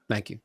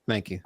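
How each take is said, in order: The two takes are said the same way.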